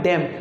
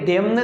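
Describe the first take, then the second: First: The final n sound is silent. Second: The final n sound is pronounced. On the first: The speaker calls it right. "हम यहाँ पर एन नहीं पढ़ रहे हैं" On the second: The speaker calls it wrong. "ये डेम्न नहीं है"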